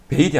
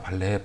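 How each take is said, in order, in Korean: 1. 한 음절 'bail'로 발음합니다. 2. 두 음절 'bah-leh'로 발음합니다. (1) "아니고" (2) "발레입니다"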